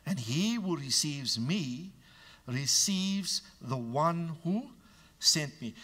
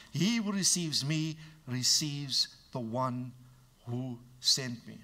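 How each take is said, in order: First: Slow and weighty; quoting Jesus solemnly; slow scripture reading. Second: Slow, deliberate restatement; preacher driving the verse home slowly; slow emphasis. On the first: Acted. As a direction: read it slowly with gravity. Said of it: "quoting Jesus". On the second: Shown as a demonstration. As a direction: lay each word down slowly. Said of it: "let me be emphatic".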